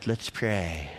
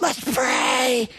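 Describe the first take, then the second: First: It is said in a bored, sleepy tone. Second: It is said in an eager, excited tone. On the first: Praying feels like a dull routine. The speaker calls it wrong. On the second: Praying feels like something worth doing. The speaker calls it right.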